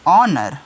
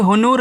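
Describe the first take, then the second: First: The word begins with a vowel sound. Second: The word begins with an h sound. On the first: The speaker calls it right. "इसको पढ़ते हैं ऑनर" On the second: The speaker calls it wrong. "नहीं पढ़ा जाएगा"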